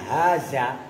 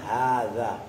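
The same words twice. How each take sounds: First: The middle consonant is a buzzing 'z' sound. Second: The middle consonant is a soft 'th' sound. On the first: The speaker calls it wrong. "Kalau sampai lu ngomongnya haza, tak gue remet bibirnya lu" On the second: The speaker calls it right. "saya bacanya haza"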